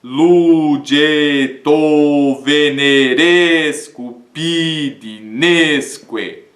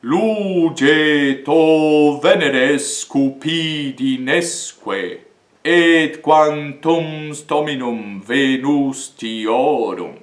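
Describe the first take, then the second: First: Very slow, level reading without stress on the tonic; flat even Latin reading; wrong accenting. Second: Very slow, rhythmic reading hitting each tonic; tonic syllables stressed. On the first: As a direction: read it evenly, no tonic stress. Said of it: "A tendência é nós dizermos". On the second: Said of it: "E aí fica assim". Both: Shown as a demonstration.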